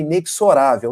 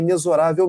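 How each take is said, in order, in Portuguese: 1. O x é pronunciado com som de ks. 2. O x é pronunciado com som de z. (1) "algumas pessoas vão corrigir" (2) "Esse X aqui tem som de Z"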